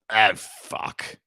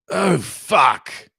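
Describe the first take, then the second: First: It is said in a relaxed, calm way. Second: It is said with strong intensity.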